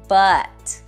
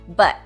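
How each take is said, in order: First: The word has a full, clear vowel. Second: The word has a short, reduced vowel. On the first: "the strong form" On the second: "The weak form"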